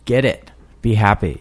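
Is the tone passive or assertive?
assertive. It is said forcefully, with assertion.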